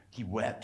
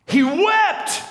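First: He wept, said much softer and low; hushed. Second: He wept, shouted much higher and louder; cried out. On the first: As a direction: let "He wept" fall quiet and tender. Softly dwelling on Jesus weeping. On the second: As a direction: hurl "He wept" out at the peak of the sermon. Preacher climaxes, crying it out. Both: Real, not acted.

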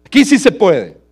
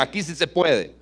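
First: "Aquí sí se puede" much higher and louder, shouted; loud tempter. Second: Said in the usual way. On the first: Acted. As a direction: shout "Aquí" as a big enticing promise. (el falso maestro gritando "Aquí sí se puede") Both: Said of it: "y ellos le dicen".

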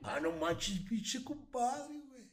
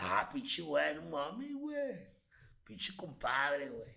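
First: High, drawn-out northern Mexican accent from Mexicali; hammed-up Baja California twang, slow on compadre; exaggerated Mexicali accent, stretched high. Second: Loud, high northern Mexican accent, drawn out; hammed-up Sonora accent from Hermosillo; exaggerated northern Mexican accent, stretched slow on compadre. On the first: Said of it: "¿Y Mexicali?". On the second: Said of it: "Muéstranos". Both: Shown as a demonstration.

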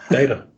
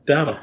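First: Data said DAY-tuh; data, first syllable rhyming with "day"; long-a DATA. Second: Data with a flat "dah" first syllable; data, first vowel open like "dad" or "dot"; short-a DATA. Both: Shown as a demonstration. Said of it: "teaching us how to pronounce".

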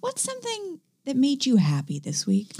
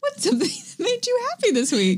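First: Breathy hushed whisper. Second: Much higher, sing-song host voice; high-pitched. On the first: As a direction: whisper the question close to the mic. Host asks co-host the question. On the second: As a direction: ask it like a bright game show host. Asks the question a third time. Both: Acted.

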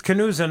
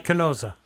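First: "Canusa" with an oo in the middle; Canusa pronunciation. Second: "Canosa" with an oh in the middle; Canosa pronunciation. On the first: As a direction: say "Canusa" with a long oo, not oh. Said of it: "not Canosa?". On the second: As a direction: say "Canosa" with a long o, not oo. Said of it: "So you're saying it's Canusa". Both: Shown as a demonstration.

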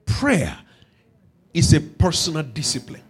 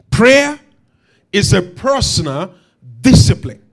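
First: Said in the usual way. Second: "Prayer" loud, then "discipline" dropped low and punched; emphatic restatement. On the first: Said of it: "brings me to an emphatic principle". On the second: Shown as a demonstration. Preacher repeating his key principle to the congregation, emphatic. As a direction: hammer "Prayer" and "discipline", pausing between phrases. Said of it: "I'll say it again".

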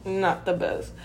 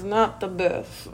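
First: "Not the best" repeated softer under the breath; a quieter repeat of "Not the best"; soft echo. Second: "not the best" drawn out slowly, leaning on "not"; dry understatement, slowed right down on "not the best"; slow emphatic. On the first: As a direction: mutter "Not the best" again as a quiet aside. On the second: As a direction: let "not the best" land slow and pointed. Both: Real, not acted.

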